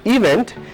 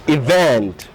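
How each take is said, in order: First: The stress is on the first syllable. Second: The stress is on the second syllable. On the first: The speaker calls it wrong. "this is not event" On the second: The speaker calls it right. "it's event"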